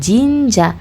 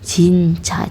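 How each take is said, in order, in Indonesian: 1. Diawali bunyi j yang lembut dan bersuara. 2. Diawali bunyi ch yang keras dan tegang. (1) "bukan jinja" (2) "dibacanya C"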